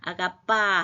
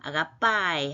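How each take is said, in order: First: The word ends on a plain 'a' vowel. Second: The word ends with an added 'ee' sound. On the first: The iota subscript is ignored. "보통은 다 무시하는데" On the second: The iota subscript is pronounced. "이오타 하기를 읽는 법도 있어요"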